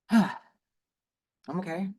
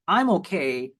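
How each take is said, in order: First: It is said in an unhappy, strained tone. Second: It is said in a plain, neutral tone. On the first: The speaker is not fine. "the tone then emotionally expresses that I'm not okay" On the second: The speaker is fine. "if we only take it at face value in just the words"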